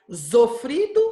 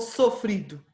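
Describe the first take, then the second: First: The word begins with a buzzing Z sound. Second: The word begins with a hissing S sound.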